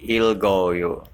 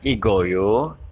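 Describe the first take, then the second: First: The word is said with an L before G. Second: The word is said without an L before G. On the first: The speaker calls it right. "tapi ilgoyo" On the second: The speaker calls it wrong. "bukan igoyo"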